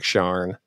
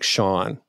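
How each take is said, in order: First: SHARN, with an R put in before the N; intrusive R. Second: Said in the usual way. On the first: Shown as a demonstration. Explaining the added-R phenomenon, SHARN with a sounded R. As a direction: say Sean as Sharn, R clearly sounded, lower. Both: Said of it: "you put an R in there".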